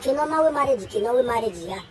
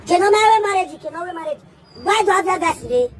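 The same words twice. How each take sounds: First: Said in the usual way. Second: Higher and louder, pressing the question on wé; Kí ló máa wé marriage thrown out loud and high with wé punched; louder emphatic retake. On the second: Acted. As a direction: push the whole question out louder, leaning on wé. Repeated line, then louder retake.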